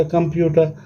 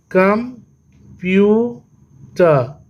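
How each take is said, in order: First: Said in the usual way. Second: Very slow "computer" as कं, प्यू, टर; long pauses splitting computer into three; syllable by syllable. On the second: Shown as a demonstration. ("Computer" तीन हिस्सों में, रुक-रुककर) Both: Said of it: "ये भी three syllable हो गया".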